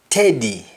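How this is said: The word begins with a t sound. "In Jamaican, the S T in most cases changes to T"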